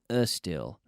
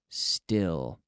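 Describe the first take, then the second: First: An extra vowel sound comes before the s. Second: The word starts directly with the s sound. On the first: The speaker calls it wrong. "We don't say uh still. No" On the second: The speaker calls it right. "there's no E"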